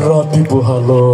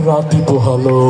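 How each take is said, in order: Both takes have the same delivery.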